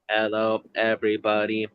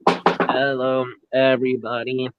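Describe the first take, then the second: First: It is said in a put-on robot voice. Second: It is said in a natural speaking voice.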